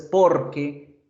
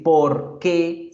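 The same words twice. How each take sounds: First: "porque" run together as one word; "porque" in one piece, unaccented que; one joined word. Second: "por qué" as two separate words, accent on qué; two words, stressed QUÉ. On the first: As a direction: say "porque" joined up, no accent on the final e. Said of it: "pegados sin tilde". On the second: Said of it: "separados con tilde en la E". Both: Shown as a demonstration.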